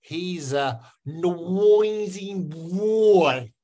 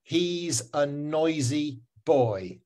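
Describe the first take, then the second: First: Very slow, higher Myanmar accent, "nwoizing bwoy"; exaggerated Myanmar accent with a w glide in "noisy boy". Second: Put-on very slow, clean "oi" in "noisy boy"; correct English pronunciation. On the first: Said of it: "do it in a Myanmar accent". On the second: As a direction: model "noisy boy" slowly for the class to repeat. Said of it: "how to say it correctly". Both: Shown as a demonstration.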